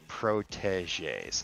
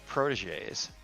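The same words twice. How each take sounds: First: The T sound is pronounced clearly. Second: The T sound is barely pronounced. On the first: The speaker calls it right. "There we go" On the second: The speaker calls it wrong. "did not enunciate that T at all"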